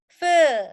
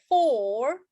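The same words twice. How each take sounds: First: "fur" louder on a long "er" vowel; long central vowel. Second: "For" with a round O held long; long O sound. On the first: Teacher alternating words for class, loud long "fur". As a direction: hold "fur" on the neutral vowel. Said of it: "Ini adalah fur". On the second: Teacher alternating words for class, long O in "For". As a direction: stretch the O in "For". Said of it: "O panjang". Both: Shown as a demonstration.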